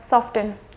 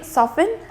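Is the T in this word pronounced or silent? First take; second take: pronounced; silent. First: The T sound is pronounced. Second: The T sound is silent. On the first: The speaker calls it wrong. "and not soften" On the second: The speaker calls it right. "it will be soften"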